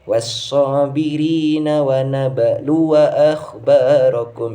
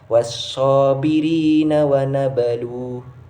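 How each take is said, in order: First: The waw is voweled and runs into the next word. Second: The waw is silent and the reading stops. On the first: The reciter continues without stopping. "ketika ingin wasol kita harus membacanya secara pendek ... itu harus dibaca wawunya" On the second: The reciter stops at this word. "apabila kita ingin waqaf ... wawunya harus disukunkan"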